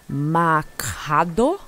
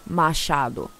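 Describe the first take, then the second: First: The name is said with an English-speaking mispronunciation. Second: The name is said with its native Portuguese pronunciation. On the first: This is how others mangled the name. The speaker calls it wrong. "everybody was like" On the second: This is the name's real pronunciation. The speaker calls it right. "Like no, sir"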